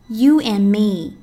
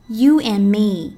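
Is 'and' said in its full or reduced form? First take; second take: reduced; reduced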